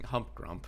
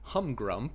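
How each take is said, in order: First: The name is said with a P sound. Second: The name is said without a P sound. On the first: The speaker calls it wrong. "I feel like I kept saying Humpgrump" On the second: The speaker calls it right. "I need to make sure I don't pronounce the P in there"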